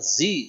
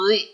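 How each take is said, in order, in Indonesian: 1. Konsonannya bunyi z mendesis. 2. Konsonannya bunyi th bersuara. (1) "bukan zi" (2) "Allazi zi bunyinya"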